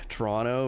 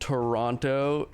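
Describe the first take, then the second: First: Toronto is said with a Canadian pronunciation. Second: Toronto is said with an American pronunciation. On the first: "and not Toronto" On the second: "I'm really Americanized and saying Toronto"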